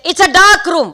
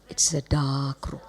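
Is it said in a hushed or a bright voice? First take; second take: bright; hushed. First: It is said in a loud, bright voice. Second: It is said in a soft, hushed voice.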